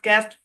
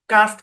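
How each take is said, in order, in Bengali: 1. স্বরধ্বনিটি একটি চাপা সামনের 'a' ধ্বনি। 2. স্বরধ্বনিটি একটি প্রশস্ত খোলা 'ah' ধ্বনি। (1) "একবার এ দিয়ে উচ্চারণ করেন" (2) "একবার আ দিয়ে উচ্চারণ করেন"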